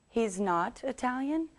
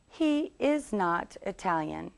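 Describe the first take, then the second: First: "He's" run together as one syllable, higher pitched; contracted short form. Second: "He is" slowly, as two full words; uncontracted long form. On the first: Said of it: "two ways to make this one shorter". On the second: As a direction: say "He is" in full, slow and distinct. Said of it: "The long version is". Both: Shown as a demonstration.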